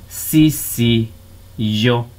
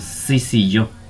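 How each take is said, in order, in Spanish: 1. Se dice despacio, separada en sílabas distintas. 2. Se dice de corrido, con las sílabas unidas. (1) "decimos sí, yo" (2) "Y ya cuando lo decimos normalmente"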